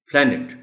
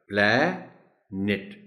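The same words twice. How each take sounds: First: "پلانٹ" joined up as PLA-nit, higher; whole-word model. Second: "پلانٹ" slowly split, plaa... net; syllable by syllable. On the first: Teacher putting the word back together, "پلانٹ" as PLA-nit. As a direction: say "پلانٹ" in one quick piece. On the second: Teacher breaking the word down, "پلانٹ" as plaa, pause, net. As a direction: stretch "پلانٹ" into two separate syllables. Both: Shown as a demonstration. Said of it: "وہ نیٹ بولا جائے گا".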